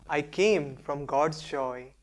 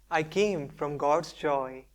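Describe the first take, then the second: The two takes are said the same way.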